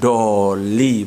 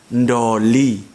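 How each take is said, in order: First: The word starts directly with a d sound. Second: The word starts with an n before the d. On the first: "kalau orang Jawa bilang itu enggak doli, bukan bukan doli" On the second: "tapi ada n di depan"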